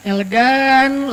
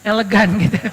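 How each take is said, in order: First: Elegan stretched very slowly, each syllable savoured; drawn out. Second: Elegan said through a little laugh. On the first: Shown as a demonstration. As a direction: linger on elegan, slow and deliberate. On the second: Real, not acted. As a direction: chuckle on elegan as you explain.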